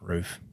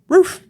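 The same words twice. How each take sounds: First: It is said in a normal speaking voice. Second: It is said like a dog barking.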